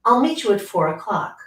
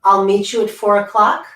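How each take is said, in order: First: "o'clock" drops down at the end; falling statement. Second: "o'clock" rises like a question; uptalk. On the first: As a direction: close "four o'clock" with a firm fall. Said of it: "voice came down at the end". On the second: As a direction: end "four o'clock" on an unsure rise. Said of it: "Sounds like there's a question mark". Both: Shown as a demonstration.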